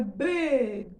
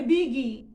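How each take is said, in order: First: Big with a vowel added at the end; wrong big. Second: Big cut short, no vowel after the g; correct big. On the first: Teacher showing the wrong Brazilian big. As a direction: say big as bigi, a vowel tacked on. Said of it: "não é big". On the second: Teacher showing the right way to say big. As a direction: say big clean, ending on the g. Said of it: "é big". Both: Shown as a demonstration.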